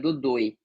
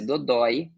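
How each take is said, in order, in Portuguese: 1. O ditongo final tem um o fechado. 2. O ditongo final tem um o aberto. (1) "se fosse fechado seria dodoi" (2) "é um som aberto"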